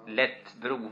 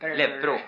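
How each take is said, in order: First: The middle consonant is a clear t sound. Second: The middle consonant is a p sound. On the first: This is the form the word comes from. "men lätt, som man lättar med" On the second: This is how the word is actually pronounced. "uttalet blir läppbro"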